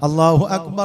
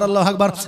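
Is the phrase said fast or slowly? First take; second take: slowly; fast. First: The phrase is said slowly and deliberately. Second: The phrase is rushed out very quickly. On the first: The call is being given properly. The speaker calls it right. "খুব তাড়াতাড়ি হবে না" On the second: The call is being done carelessly. The speaker calls it wrong. "আজান যদি পাইকারি হারে হয়"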